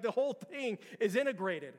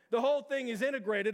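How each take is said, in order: First: Said in the usual way. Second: "whole" pressed harder and louder; emphatic repeat. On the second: Shown as a demonstration. Pastor repeating to the church, stressing "whole". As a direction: hammer home "whole" on the repeat.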